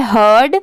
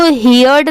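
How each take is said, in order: First: हर्ड as one syllable with an "er" vowel; correct pronunciation. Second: हियर्ड with an "ee-ya" vowel, like hear plus d; wrong reading. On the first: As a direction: say हर्ड with no "ee" sound. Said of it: "इसकी pronunciation है हर्ड". (हर्ड को एक ही ध्वनि-खंड में, "हर्ड" बोलें) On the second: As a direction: mispronounce it as हि-यर्ड. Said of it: "इसको हियर्ड नहीं पढ़ेंगे". (हियर्ड को "हि-यर्ड" की तरह गलत बोलें) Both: Shown as a demonstration.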